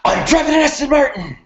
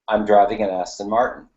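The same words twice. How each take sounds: First: It is said loudly with strong energy. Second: It is said calmly, in a normal voice.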